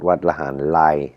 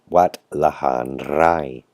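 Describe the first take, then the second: First: The last word begins with an L sound. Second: The last word begins with an R sound. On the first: The speaker calls it wrong. "Not Wat Lahan Lai, like a lot of people ... pronounce the R like an L" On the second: The speaker calls it right. "It's Wat, Wat Lahan Rai"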